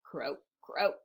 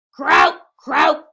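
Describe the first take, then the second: First: Low, soft croaks; quiet frog croak. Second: Very loud, raised croaks; loud frog croak. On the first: Frog after the farmer's scolding, low quiet croaking. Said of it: "they quietly made their noises". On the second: Teacher reads the noisy frog to children, loud croaking. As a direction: croak it out at full volume. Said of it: "went the frog". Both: Acted.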